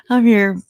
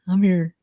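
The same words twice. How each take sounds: First: Called out louder, I'm here; louder announcing call. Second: Said in the usual way. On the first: Real, not acted. Streamer telling chat she's arrived, called out louder. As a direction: announce yourself to the room.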